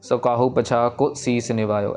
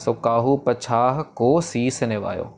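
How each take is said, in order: First: The vowel in 'ko' is short and rushed. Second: The vowel in 'ko' is stretched and held long. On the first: The speaker calls it wrong. "ऐसे नहीं, को नहीं कहना" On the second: The speaker calls it right. "को को इधर stretch करना है"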